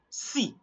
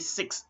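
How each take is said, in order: First: The final x sound is left silent. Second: The final x sound is pronounced. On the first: The speaker calls it right. "you only say si" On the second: The speaker calls it wrong. "you are not going to say six"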